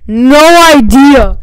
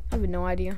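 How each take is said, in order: First: Slow, booming shouted answer; very loud, drawn-out yell. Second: Low, soft restatement; softly spoken, lowered-pitch admission; quiet aside. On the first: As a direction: holler it, stretching each word. Shouted answer, then repeated quietly. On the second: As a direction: say it low and under-projected. Same answer repeated quietly. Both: Real, not acted.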